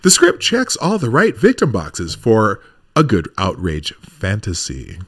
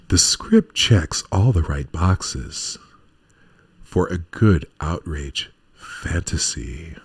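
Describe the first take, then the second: First: It is said in his normal voice. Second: It is said in a put-on romance novel voice.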